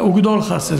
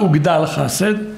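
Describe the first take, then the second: First: The first word's last syllable has an 'o' vowel. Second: The first word's last syllable has an 'a' vowel. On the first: The speaker calls it right. "אלא וגדול חסד, קמץ קטן" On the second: The speaker calls it wrong. "אז לא וגדל חסד"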